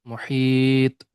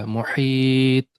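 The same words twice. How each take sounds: Both takes have the same delivery.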